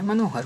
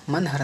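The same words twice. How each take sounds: First: मनोहर as mano-har; corrected form. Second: मनहर as man-har; no vowel o in मनहर; wrong form. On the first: Teacher corrects students, मनोहर with full o. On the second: Teacher shows the error, मनहर as man-har. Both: Shown as a demonstration. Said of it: "नहीं होता है".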